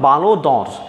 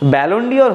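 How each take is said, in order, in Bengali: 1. নামটি ফরাসি উচ্চারণে বলা হয়েছে। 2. নামটি ইংরেজিকৃত উচ্চারণে বলা হয়েছে।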